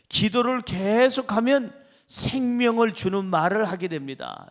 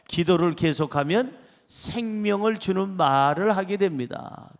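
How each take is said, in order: First: Rising, emphatic lead line for the congregation; preacher's lead line. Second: Congregation repeats. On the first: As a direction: say it out firmly for them to repeat. (설교자가 먼저 힘있게 읽어주는 문장) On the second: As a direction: read back together with the pastor. (회중이 따라 읽는 문장) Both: Shown as a demonstration. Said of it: "시작".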